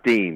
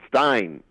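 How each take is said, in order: First: The vowel sounds like 'ee' in 'seen'. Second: The vowel sounds like 'eye' in 'fine'. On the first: The speaker calls it wrong. "Everybody else calls Steen. It's not Steen" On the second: The speaker calls it right. "It's Stein"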